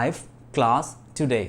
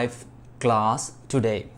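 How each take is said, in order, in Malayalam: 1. 'I have' ഒരു സിലബിളായി ചുരുക്കുന്നു. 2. 'I have' ഒരു സിലബിളായി ചുരുക്കുന്നു.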